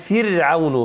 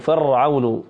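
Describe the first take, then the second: First: The r is pronounced light and thin. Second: The r is pronounced heavy and emphatic. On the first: The speaker calls it right. "نقول فرعون" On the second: The speaker calls it wrong. "وهذا من الخطأ"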